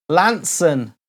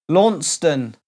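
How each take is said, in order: First: Lanson, said "LAN-son" with a falling tone; correct pronunciation. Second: Launceston, said "LAWN-ston", as spelt; the outsider's Launceston; wrong pronunciation. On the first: Host reading viewer names gives it right: Lanson. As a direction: Lanson the local way, short and settled. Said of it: "mispronounced quite a lot". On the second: Host shows the common mistake: Launceston. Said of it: "That's what people usually call it". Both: Shown as a demonstration.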